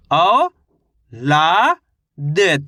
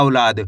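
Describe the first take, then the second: First: "औ, ला, द" as separate, drawn-out syllables with pauses. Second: Said in the usual way. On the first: Shown as a demonstration. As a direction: sound out औ, ला, द one at a time. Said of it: "इस तरीके से एक अक्षर का उच्चारण". (अक्षर-अक्षर अलग करके "औ, ला, द") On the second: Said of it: "शब्द का उच्चारण सही से हो जाएगा".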